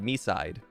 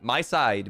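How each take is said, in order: First: The first syllable sounds like 'me'. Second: The first syllable sounds like 'my'. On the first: "the M I is pronounced to me" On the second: "the title is supposed to be my side"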